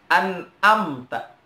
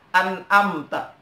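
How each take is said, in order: The two takes are said the same way.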